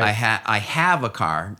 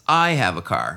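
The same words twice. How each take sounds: First: The word "have" carries the main stress. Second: The word "I" carries the main stress. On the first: The person does have a car, against a claim otherwise. "No, I don't" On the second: It is this person, not someone else, who has a car. "not you"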